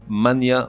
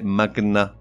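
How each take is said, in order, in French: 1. Le 'gn' se prononce 'ny'. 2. Le 'gn' a un 'g' dur puis un 'n'. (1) "On ne dit pas"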